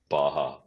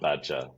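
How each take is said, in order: First: It is said with an 'h' sound, like bah-ha. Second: It is said with a 'j' sound, like badger. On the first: The speaker calls it right. "it's Baja" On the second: The speaker calls it wrong. "it's not badger"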